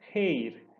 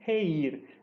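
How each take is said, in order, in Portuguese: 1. As vogais se juntam numa sílaba só, um ditongo. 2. As vogais se separam em duas sílabas diferentes. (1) "continua sendo um ditongo, por isso eu pronuncio reir" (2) "e não reir"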